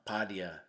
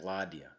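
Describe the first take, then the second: First: The word begins with a P sound. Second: The word begins with an L sound. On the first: The speaker calls it wrong. "I pronounced the the word for rook wrong" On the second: The speaker calls it right. "it's in fact ladia"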